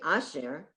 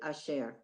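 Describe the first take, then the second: First: The stress is on the first syllable. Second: The stress is on the second syllable. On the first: The speaker calls it wrong. "You don't say asher" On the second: The speaker calls it right. "you say asher"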